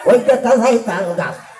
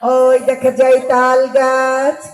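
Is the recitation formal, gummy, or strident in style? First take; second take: gummy; formal. First: It is mumbled in a gummy, toothless old voice. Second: It is read in a slow, formal address voice. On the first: A toothless elder recites it. "বত্রিশটা দাঁতের ভিতর ছত্রিশটা দাঁতই ধরে পড়ে গেছে" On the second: An opposition leader recites it as a speech. "ম্যাডামের কাছে যদি আমরা পাঠাই, তিনি আবৃত্তি করলে কিভাবে বলতেন"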